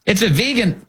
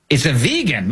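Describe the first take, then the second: First: "vegan" said VEE-gun, the proper way, pitch up; correct vegan. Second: "vegan" said VAY-gun, the wrong way; mock mispronounced vegan. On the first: Host correcting the president's "vegan", pitched up. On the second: Host mocking the president's mispronounced "vegan". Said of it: "how to pronounce that thing". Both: Shown as a demonstration.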